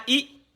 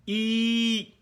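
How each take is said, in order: First: "i" as a brief sound; quick, short "i"; short vowel. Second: "i" held long on one note; sustained ee sound for "i"; long vowel. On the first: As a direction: cut "i" short. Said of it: "les voyelles brèves". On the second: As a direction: stretch out "i" steadily. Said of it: "les voyelles longues". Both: Shown as a demonstration.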